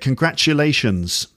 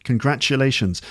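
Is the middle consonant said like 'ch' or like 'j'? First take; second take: ch; ch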